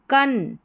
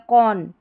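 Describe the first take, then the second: First: कन with a short "uh" vowel; first reading. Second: कौन with a rounded "o" vowel, as "kon"; alternative reading. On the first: Teacher offering the first way to read C-O-N, कन with short vowel. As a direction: say कन as "kun". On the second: Teacher offering the other way to read C-O-N, कौन with rounded vowel. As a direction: say कौन as "kon" in place of "kun". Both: Shown as a demonstration. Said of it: "कन या कौन".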